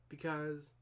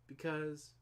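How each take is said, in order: The two takes are said the same way.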